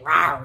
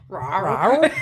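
First: It is said in a neutral accent. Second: It is said in a Northern Irish accent.

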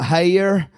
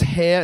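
First: The word is drawn out into two syllables. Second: The word is said as one syllable. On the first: The speaker calls it wrong. "it's not hair" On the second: The speaker calls it right. "words that have one syllable remain with one syllable"

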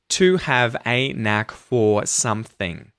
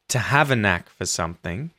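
First: To, a and for are fully pronounced. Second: To, a and for are reduced to schwa. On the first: The speaker calls it wrong. "instead of" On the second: The speaker calls it right. "make it sound a lot more natural when you say"

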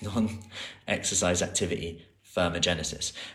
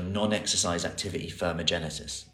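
First: It is said slowly. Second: It is said at normal speed.

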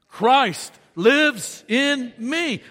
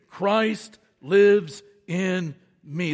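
First: It is said with lively, enthusiastic energy. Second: It is said in a plain, calm way. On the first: "but with some enthusiasm" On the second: "say it with me"

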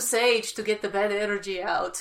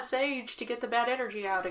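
First: It is said with a heavy Russian accent. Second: It is said in the speaker's plain accent.

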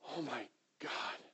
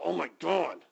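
First: It sounds like a breathless, stunned cry of grief. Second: It sounds like a quick, pained outburst.

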